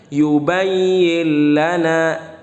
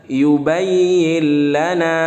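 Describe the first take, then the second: The two takes are said the same way.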